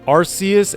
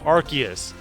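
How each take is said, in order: First: The C is soft, like an s. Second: The C is hard, like a k. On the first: "Arceus had a soft C" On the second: "they changed it to a hard C"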